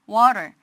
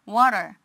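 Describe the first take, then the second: No difference in how they are said.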